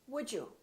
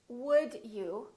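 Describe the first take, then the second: First: The d and y blend into a j sound. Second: The d and y sounds stay separate.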